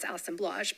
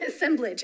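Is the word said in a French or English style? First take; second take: French; English. First: It is said with a French-style ending. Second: It is said with an English-style ending. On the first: "I like to pronounce it that way" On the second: "I'm assuming it's like assembly"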